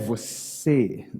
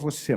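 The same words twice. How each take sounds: First: It is said with a marked, special intonation. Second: It is said with ordinary, everyday intonation. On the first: It addresses the unconscious mind within the person. "é a entonação que muda ... É o você" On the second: It addresses the conscious person normally. "quando eu falo com ele, eu falo você"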